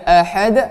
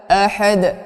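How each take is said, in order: First: The first vowel is less open. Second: The first vowel is clear and open. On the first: The speaker calls it wrong. "kurang buka" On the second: The speaker calls it right. "Hamzah ya dibaca jelas"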